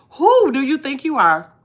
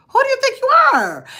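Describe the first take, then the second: First: Said in the usual way. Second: Squeaky high, offended who do you think you are; high-pitched mock outrage at the gossipers; mock indignant. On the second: Shown as a demonstration. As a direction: play it like a scandalised diva asking who do you think you are. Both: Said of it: "That's what I'm looking like".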